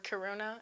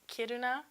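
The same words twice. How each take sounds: First: The name is said in the speaker's own accent. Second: The name is said the Swedish way.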